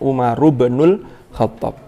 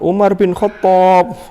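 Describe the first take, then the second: First: The middle word is said in full, linked 'ibnul'. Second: The middle word is shortened to a plain 'bin'. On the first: The speaker calls it right. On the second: The speaker calls it wrong.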